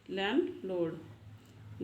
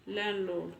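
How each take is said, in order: First: landlord drawn out very slowly, each sound spelled out; teacher modelling landlord very slowly for practice; slow clear demo. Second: Said in the usual way. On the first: Shown as a demonstration. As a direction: stretch landlord out slowly so learners can copy it. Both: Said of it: "इसका pronunciation भी बताने वाली हूँ".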